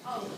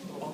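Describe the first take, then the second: First: It sounds very cross. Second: It sounds calm and accepting. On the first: The listener is angry about it. "And very cross" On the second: The excuse is accepted. "calm acceptance"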